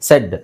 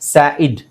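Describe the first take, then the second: First: It is said as one short syllable. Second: It is sounded out as two separate syllables. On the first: The speaker calls it right. "But ಇದನ್ನು ಹೇಳೋದು ಹೇಗೆ, ಸೆಡ್" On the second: The speaker calls it wrong. "ಸ್ಯಾ ಇಡ್ ಅಂತ ಆಗಲ್ವಾ"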